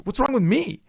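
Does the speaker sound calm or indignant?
indignant. It sounds like an angry, indignant protest. The speaker insists she has no fault at all. The speaker calls it right. "there's nothing wrong with me. I'm perfect"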